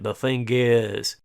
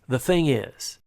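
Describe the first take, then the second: First: It is said with a foreign-sounding pronunciation. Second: It is said with a native-sounding pronunciation. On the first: The speaker calls it wrong. "he mispronounces several, several keywords in English" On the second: The speaker calls it right. "It's the thing is"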